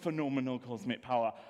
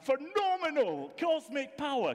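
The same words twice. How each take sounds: First: It is said flatly, without much energy. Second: It is said loudly, with grand, booming energy. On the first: The speaker calls it wrong. "you don't sound that impressive" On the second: The speaker calls it right. "he says it in a really impressive voice"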